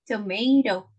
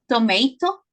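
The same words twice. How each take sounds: First: The second t is a quick tap. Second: The second t is a hard t. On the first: The speaker calls it right. "la segunda nos suena como una R" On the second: The speaker calls it wrong. "no es"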